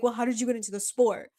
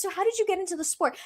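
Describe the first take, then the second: First: Quick imitation of a doubting chad, in own pitch; lightly voiced dismissive chad, fast; mocking chad. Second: High, quick imitation of friendly interest; retold sincere question, high and brisk; genuinely curious. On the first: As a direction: challenge it like a gatekeeping chad. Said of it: "one of those chads that love to be like". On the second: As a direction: ask it lightly and fast, pitched up. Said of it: "the way he asked it actually was genuine".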